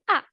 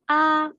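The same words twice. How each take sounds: First: The pitch falls sharply from high. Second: The pitch stays level and high. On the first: "Comme l'accent grave" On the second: "Le premier ton est un ton plat"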